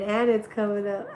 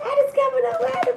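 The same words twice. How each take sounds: First: Laughing. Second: High squeal. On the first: Laughing at a sign appearing. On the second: Repeats it in a squeal. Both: Real, not acted.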